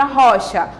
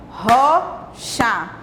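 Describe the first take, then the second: First: Said in the usual way. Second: "rocha" split in two beats, RO, pause, CHA; syllable by syllable. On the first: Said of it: "pronunciei duas vezes". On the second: Shown as a demonstration. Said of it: "Aí eu já pronunciei duas vezes". ("rocha" sílaba por sílaba, com pausa)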